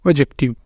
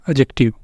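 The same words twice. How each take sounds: The two takes are said the same way.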